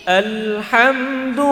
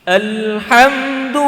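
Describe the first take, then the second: No difference in how they are said.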